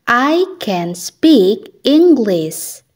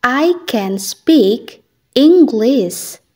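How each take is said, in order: Both takes have the same delivery.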